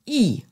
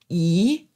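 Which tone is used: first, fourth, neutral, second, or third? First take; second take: fourth; second. First: The syllable is said with the fourth tone. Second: The syllable is said with the second tone. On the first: "der vierte Ton" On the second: "der zweite Ton"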